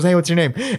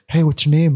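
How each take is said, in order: First: It is said in a put-on girl's voice. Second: It is said in an unconvincing, unfeminine voice.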